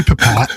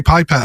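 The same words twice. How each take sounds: First: Pipette as puh-PET; unstressed first vowel. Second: Pipette as PIE-pet; long i pronunciation. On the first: Shown as a demonstration. Giving their own way of saying it, pipette as puh-PET. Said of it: "I say pipette". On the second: Retold or imitated. Quoting what some people say, pipette as PIE-pet. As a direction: say pipette with the first syllable like "pie". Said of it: "Some people say pipette".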